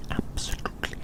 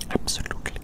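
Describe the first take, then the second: No difference in how they are said.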